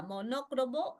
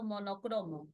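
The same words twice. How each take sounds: First: "monócromo" stressed on the second syllable NÓ; first option, "monócromo" with early stress. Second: "monocromo" stressed on next-to-last CRO; second option, "monocromo" with later stress. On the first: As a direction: say "monócromo" as mo-NÓ-cro-mo. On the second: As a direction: say "monocromo" as mo-no-CRÓ-mo. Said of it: "Es monocromo". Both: Shown as a demonstration.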